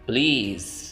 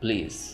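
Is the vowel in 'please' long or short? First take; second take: long; short. First: The vowel is drawn out long. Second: The vowel is kept short. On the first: "British में प्लीज़ लंबा करके पढ़ेंगे" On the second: "American में प्लीज़ short करके"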